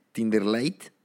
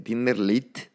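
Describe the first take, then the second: First: "Lite" said as English "light", with an ai sound; "Tinder Lite" with Lite as English "lait"; English-style Lite. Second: "Lite" said as Spanish "lit", short i; "Tinder Lite" with Lite read the Spanish way, like "leet"; Spanish-style Lite. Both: Shown as a demonstration. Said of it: "una versión light o lite, como queramos pronunciarlo".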